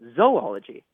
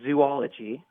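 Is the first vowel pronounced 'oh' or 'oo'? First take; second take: oh; oo. First: The first syllable sounds like 'zoh'. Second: The first syllable sounds like 'zoo'. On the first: "our teacher says that it should be pronounced" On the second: "we would typically say"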